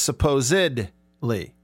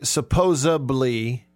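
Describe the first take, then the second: First: The middle consonant is a D sound. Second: The middle consonant is a B sound. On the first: The speaker calls it right. "It's supposedly" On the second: The speaker calls it wrong. "some people say supposedly with a B"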